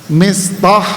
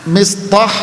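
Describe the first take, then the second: Both takes have the same delivery.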